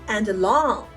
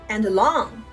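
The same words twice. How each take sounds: Both takes have the same delivery.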